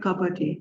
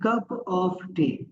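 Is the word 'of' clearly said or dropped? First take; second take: dropped; clearly said. First: The word 'of' is dropped almost entirely. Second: The word 'of' is clearly pronounced. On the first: "उसको वो कहते हैं कि ... ऑफ खत्म हो गया" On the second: "अगर हम बात करें जी कप ऑफ टी"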